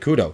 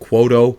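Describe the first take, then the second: First: The name is said as 'Kudo'. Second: The name is said as 'Quoto'. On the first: The speaker calls it right. "but it's actually Kudo" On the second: The speaker calls it wrong. "We were saying Quoto"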